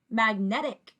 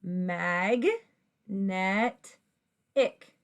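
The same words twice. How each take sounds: First: "magnetic" blended smoothly into one word; fast together. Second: "Mag, net, ick" one syllable at a time; separate syllables. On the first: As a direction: run the three syllables of "magnetic" together. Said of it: "blend them fast together". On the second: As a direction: sound out "Mag, net, ick" with pauses between. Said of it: "If you say those syllables". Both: Shown as a demonstration.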